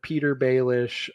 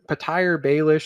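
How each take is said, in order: First: The first name has two syllables. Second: The first name has three syllables. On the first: The speaker calls it right. "instead of Peter Baelish" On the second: The speaker calls it wrong. "he says Patire Patire Baelish instead of"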